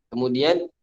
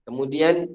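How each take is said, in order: No difference in how they are said.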